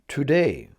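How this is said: The first syllable is a full 'too'.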